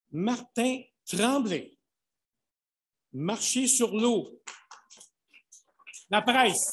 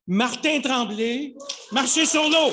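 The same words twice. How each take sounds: First: Loud, high, slow name calling; booming prize announcer. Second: Booming prize announcer. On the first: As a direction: announce the title to the room. Announcing nominees. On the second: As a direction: proclaim the winner triumphantly. Announcing the winner. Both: Acted.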